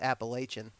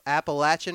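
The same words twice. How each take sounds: First: It uses the northern, outsider pronunciation. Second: It uses the local mountain-region pronunciation. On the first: This is how outsiders from the north say it. "that's probably what Yankees say" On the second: This is how people from the region say it. "is that right?"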